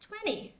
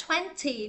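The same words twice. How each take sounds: First: "twenty" with the second t softened away, twen-ee; American pronunciation. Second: "twenty" with a clear t, twen-tee; standard pronunciation. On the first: Teacher showing American English, "twenty" pronounced with softened second t. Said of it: "giọng Anh Mỹ chữ tờ thành chữ đờ nhẹ". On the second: Teacher giving the standard form, "twenty" pronounced twen-tee with crisp t. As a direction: sound both t's in "twenty". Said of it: "đúng chuẩn là twenty". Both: Shown as a demonstration.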